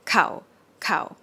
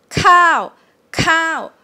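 First: "Cow, cow" short and low. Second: Long "cow" falling from high and loud. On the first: Teacher contrasts short and long "cow". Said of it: "Shorter, cow, but the same tone". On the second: Teacher shows the long falling tone. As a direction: stretch "cow" and let it fall. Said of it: "compare to the long version". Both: Shown as a demonstration.

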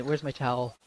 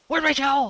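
First: Said in the usual way. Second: Loud, high-pitched repeat of a demand; urgent yell. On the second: Real, not acted. Sweaty player calling for a towel, urgent yell. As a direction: yell for it in a panic.

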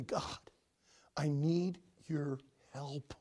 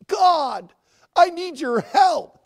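First: Slow, hushed whisper; humble whispered prayer. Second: Loud, higher, slow cry to God; fervent prayer. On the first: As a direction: breathe it as a private plea. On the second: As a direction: cry it out with full force. Same prayer, crying out. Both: Acted.

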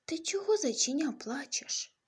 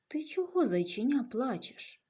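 First: Much higher, squeaky little voice; tiny bug voice. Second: Big, loud elephant asking kindly; a big elephant booming gently at a little bunny. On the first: Tiny bug asking the crying bunny, high and squeaky. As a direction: sound as small as a tiny beetle. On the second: Elephant to the crying bunny, loud and caring. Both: Acted.

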